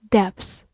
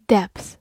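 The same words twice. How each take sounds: The two takes are said the same way.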